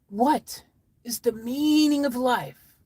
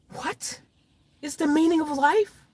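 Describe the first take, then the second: First: Slow, drawn-out question, high on MEANING; story character asking. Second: Whispered WHAT, then high rising question; incredulous echo. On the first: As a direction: ask it slowly and ponderously, falling at the end. Story character asks solemn question. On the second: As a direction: repeat it high, as if baffled. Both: Acted.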